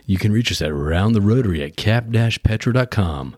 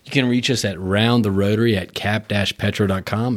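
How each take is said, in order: First: It is said in a put-on announcer voice. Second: It is said in his normal speaking voice.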